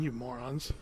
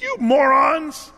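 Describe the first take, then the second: First: Very soft, low sulky grumble; grumbling aside. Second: Loud, high, slow shouted insult; angry yell. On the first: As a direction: grumble it under the breath, off to the side. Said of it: "Moses is standing off the side, leaning up his tree, just going". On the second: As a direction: hurl it at the crowd, stretched out. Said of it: "he yells at them". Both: Retold or imitated.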